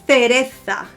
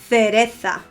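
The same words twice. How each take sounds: No difference in how they are said.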